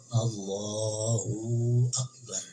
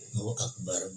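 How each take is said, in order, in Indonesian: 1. Vokal 'hu' dipanjangkan terlalu lama. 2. Vokal 'hu' pendek dan jelas. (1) "hu-nya kepanjangan, waw jadinya"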